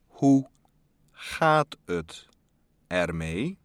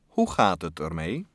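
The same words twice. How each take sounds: First: It is said more slowly. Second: It is said at normal speed.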